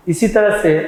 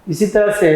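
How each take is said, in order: Both takes have the same delivery.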